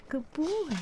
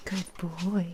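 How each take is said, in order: First: High cooing praise; pet voice. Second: Said in the usual way. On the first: Real, not acted. Owner praising the dog, high cooing.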